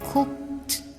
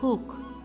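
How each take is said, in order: First: The final t sound is pronounced. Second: The final t sound is dropped. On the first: "in mainstream American English" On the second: "But in Chicano English, they said cook"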